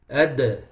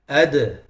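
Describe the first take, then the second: First: The final d ends with an echoing bounce. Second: The same.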